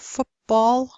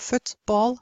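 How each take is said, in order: First: The sound before b blends into a lip sound. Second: The sound before b stays a clear t. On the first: "the same thing happens" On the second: "instead of"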